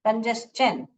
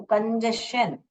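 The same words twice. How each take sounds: First: कंजेस्शन said as "kon-jes-chun", with the "s" and a "ch" ending; the right कंजेस्शन, "ch" clearly sounded; correct pronunciation. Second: The common mistake कंजेशन with a "sh" sound; wrong pronunciation. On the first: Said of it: "कंजेशन करके नहीं pronounce करते हैं". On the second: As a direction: demo the wrong कंजेशन, slowly. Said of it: "बहुत लोग गलत pronounce करते हैं". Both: Shown as a demonstration.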